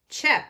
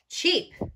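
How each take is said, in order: First: The vowel is a short E, as in 'bed'. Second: The vowel is a long E, as in 'see'. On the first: The speaker calls it wrong. "one of the ways to do it is the short E sound" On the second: The speaker calls it right. "I'll try the long E sound"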